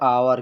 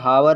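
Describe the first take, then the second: First: The word begins with a vowel sound. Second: The word begins with an h sound. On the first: The speaker calls it right. "इसको पढ़ा जाएगा आवर क्योंकि H silent रहेगा" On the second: The speaker calls it wrong. "लिखा है हावर"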